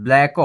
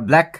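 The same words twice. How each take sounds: First: "ব্ল্যাক" with an extra o added after the final k; mock-wrong "ব্ল্যাক" with a trailing o vowel; wrongly drawn-out ending. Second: Said in the usual way. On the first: Shown as a demonstration. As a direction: stretch "ব্ল্যাক" into two beats, ending in -ko. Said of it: "এভাবেও বলি না". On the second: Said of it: "ব্ল্যাক বলে থেমে যাই".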